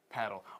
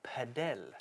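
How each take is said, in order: First: It is said like the English word paddle. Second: It is said the official padel way.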